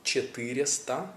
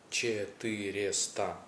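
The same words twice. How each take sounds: First: Четыреста with all four syllables, rising at the end; careful Russian. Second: Четыреста repeated slowly and softly, falling. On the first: Teacher showing the syllables of the number. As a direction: sound out Четыреста clearly, rising. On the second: Teacher repeating the number for learners to copy. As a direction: say Четыреста again, slower and falling. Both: Shown as a demonstration. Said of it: "That's four syllables".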